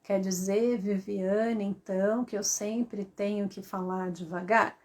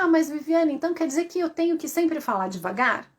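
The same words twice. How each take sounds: First: Low, soft, droning question; slow monotone. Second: Higher, quick objecting question; brisk, raised-pitch query; questioning listener. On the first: Shown as a demonstration. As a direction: drone it out evenly, word by word. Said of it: "isso é monotonia". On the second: Acted. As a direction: play a follower protesting in a hurry. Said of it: "pode até me perguntar".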